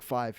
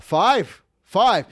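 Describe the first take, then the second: First: Said in the usual way. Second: High, loud celebratory call; mock gambler's excitement. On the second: Gambler hitting the number he needed, excited imitation. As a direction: crow the winning number.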